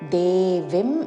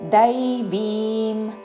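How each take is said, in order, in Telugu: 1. మొదటి అచ్చు సాధారణ 'e'. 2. మొదటి అచ్చు ద్విస్వరమైన 'ai'. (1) "దేవిం అనకూడదు" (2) "దై ద ఐత్వముతో"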